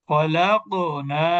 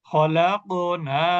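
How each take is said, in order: Both takes have the same delivery.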